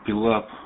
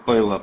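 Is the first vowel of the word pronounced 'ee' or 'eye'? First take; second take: ee; eye. First: The first vowel sounds like 'ee'. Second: The first vowel sounds like 'eye'. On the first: The speaker calls it wrong. "вы с кем-то говорили, пилап" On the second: The speaker calls it right. "произносится пайлап вообще-то правильно"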